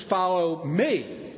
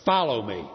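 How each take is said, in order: First: "me" drawn out and emphasized; slow "Follow me", leaning hard on "me"; stress on ME. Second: Low, firm command; voice of authority. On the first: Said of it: "Or was it the emphasis". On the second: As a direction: say "Follow me" as a commanding summons. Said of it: "Was it the voice of authority?". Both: Shown as a demonstration.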